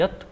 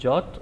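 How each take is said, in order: First: The word begins with a 'y' sound. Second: The word begins with a 'j' sound. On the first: The speaker calls it right. "ये यत करोशी है" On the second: The speaker calls it wrong. "ये जौत नहीं है"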